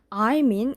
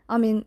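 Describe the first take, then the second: First: Both words are pronounced fully and clearly. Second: The words are clipped and said very short. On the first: "이렇게 제대로 발음을 하는 게 아니라" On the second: "이런 식으로 굉장히 짧게 발음을 하더라고요"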